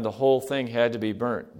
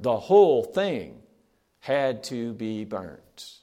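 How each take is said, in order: First: Said in the usual way. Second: "The whole thing" hit loud, then "had to be burnt" drawn out very slowly; preacher hammering "The whole thing had to be burnt" home, loud then slow; stress on whole, slow finish. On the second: Shown as a demonstration. Repeats the key line, emphasized.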